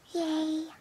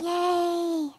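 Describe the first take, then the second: First: It is said quietly, with little energy. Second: It is said very loudly, with great energy.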